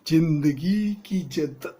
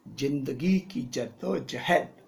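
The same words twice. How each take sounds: First: Slow, loud, overdone delivery; overacted emotion. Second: Slow, puffed-up delivery; stiff and arrogant. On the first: Hero overacting the line to bring emotion. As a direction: ham it up with fake emotion. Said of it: "ये क्या कर रहा है?". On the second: Acted. Arrogant hero reading his first film line. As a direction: say it stiffly, full of yourself. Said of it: "ऐसे अकड़ के नहीं बोलना".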